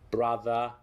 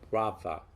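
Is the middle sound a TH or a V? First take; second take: TH; V. First: The middle consonant is a voiced TH. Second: The middle consonant is a V.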